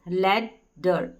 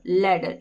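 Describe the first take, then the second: First: Ladder split and stretched very slowly; teacher drawing out each syllable of ladder; slow syllable demo. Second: Said in the usual way. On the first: Shown as a demonstration. Teacher breaking up ladder for students, very slow. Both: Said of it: "तो हो गया ladder".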